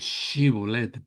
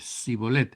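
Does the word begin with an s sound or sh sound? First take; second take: sh sound; s sound. First: The word begins with a sh sound. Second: The word begins with an s sound. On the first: The speaker belongs to the group that could say it properly. The speaker calls it right. "los de Jefté, ellos podían decir Shibolet" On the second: The speaker belongs to the group that could not say it properly. The speaker calls it wrong. "los efraimitas solo podían decir Sibolet"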